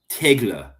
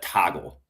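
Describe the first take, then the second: First: It is read with Polish pronunciation. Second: It is read with English pronunciation. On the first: "and if you thought it was Polish" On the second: "If if I had thought that was an English word, I would pronounce that toggle"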